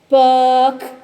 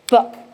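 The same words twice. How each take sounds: First: The word is dragged out in a droning monotone. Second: The word is said crisply at normal length. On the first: The speaker calls it wrong. "If you hear the students droning, you'll say, you're saying it this way" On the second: The speaker calls it right. "Now show them the right way"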